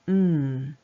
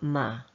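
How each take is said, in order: First: The consonant sound is held alone without a vowel. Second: The consonant sound is followed by an added vowel. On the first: The speaker calls it right. "are pronounced mm" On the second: The speaker calls it wrong. "and not ma"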